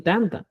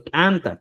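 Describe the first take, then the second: First: Said in the usual way. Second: "tanta" said the Cusco way, with a marked first T; pronunciación cusqueña. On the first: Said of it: "es válido también tanta". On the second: Shown as a demonstration. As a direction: give "tanta" its Cusco Quechua T. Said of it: "como se dice en Cusco". ("tanta" a la manera cusqueña)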